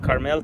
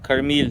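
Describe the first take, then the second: First: The last syllable has an 'el' sound. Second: The last syllable has an 'il' sound. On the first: The speaker calls it wrong. "Not Carmel" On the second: The speaker calls it right.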